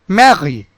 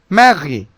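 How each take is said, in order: Both takes have the same delivery.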